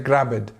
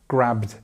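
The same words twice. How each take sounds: First: An extra vowel comes before the final d. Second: The b goes straight into the d. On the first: The speaker calls it wrong. "They will say grabbed" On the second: The speaker calls it right. "there's no vowel sound in between"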